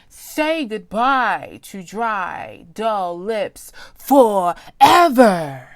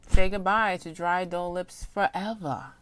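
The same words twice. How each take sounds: First: It is read excitedly, with lots of energy. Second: It is read flatly, without much excitement.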